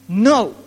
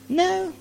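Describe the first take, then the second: First: It is said firmly and decisively. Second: It is said weakly and half-heartedly.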